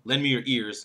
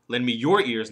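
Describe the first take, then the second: First: The word ears is stressed. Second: The word your is stressed. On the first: Give ears, not another body part. "And the fourth one, not your hands" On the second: Give your own, not someone else's. "The third one, not somebody else's ears"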